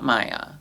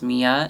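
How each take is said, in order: First: The first vowel sounds like 'eye'. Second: The first vowel sounds like 'ee'. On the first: The speaker calls it wrong. "not Maya" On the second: The speaker calls it right. "She wants you to know it's Mia"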